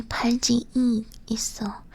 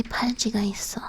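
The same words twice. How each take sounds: First: 팔 G E 있어 with an extra E vowel; 팔 G E 있어, vowel after vowel; wrong particle demo. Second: 팔 G 있어 run together quickly; brisk 팔 G 있어 without an extra vowel; correct form demo. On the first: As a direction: add a separate E after 팔 G, before 있어. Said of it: "it wouldn't sound good if you say". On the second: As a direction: go straight from 팔 G into 있어, no E. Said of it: "You would say". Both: Shown as a demonstration.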